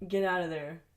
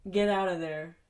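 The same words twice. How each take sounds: The two takes are said the same way.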